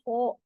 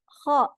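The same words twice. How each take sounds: First: The sound is made with rounded lips. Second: The sound comes from the throat, lips unrounded. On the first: The speaker calls it wrong. "tidak perlu membulatkan mulutnya, bukan kho" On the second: The speaker calls it right. "di tenggorokan"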